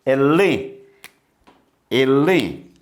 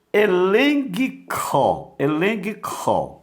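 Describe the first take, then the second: First: Elen with a nasal en; correct pronunciation. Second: Elenco read as eleguico, slow; wrong pronunciation. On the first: Teacher modelling the correct elen. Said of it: "mas você vai ler". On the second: Teacher showing the wrong reading of elenco. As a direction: say elenco with a g sounded before co. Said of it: "Você não vai ler". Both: Shown as a demonstration.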